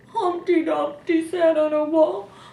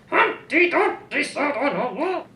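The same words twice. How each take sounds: First: The line is read in a sad voice. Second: The line is read in an angry voice. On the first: "Or we could read it sad" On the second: "Or we could read it mad"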